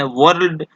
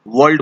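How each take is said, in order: First: "वर्ल्ड" में र पर ज़ोर देकर; गलत उच्चारण. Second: "वर्ल्ड" में र की आवाज़ गायब; सही उच्चारण. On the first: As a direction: roll a clear R in "वर्ल्ड". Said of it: "वर्ल्ड नहीं बोला जाता है". ("वर्ल्ड" को व-र्र-ल्ड की तरह) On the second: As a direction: say "वर्ल्ड" as wald, R silent. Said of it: "इसको वर्ल्ड बोला जाता है". ("वर्ल्ड" को वल्ड की तरह) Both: Shown as a demonstration.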